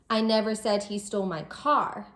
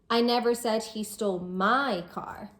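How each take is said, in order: First: The word car carries the main stress. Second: The word my carries the main stress. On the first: He stole something other than the car. "He didn't steal my car, maybe he stole something else" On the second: The stolen car belonged to someone else. "So it wasn't my car he stole, it was someone else's"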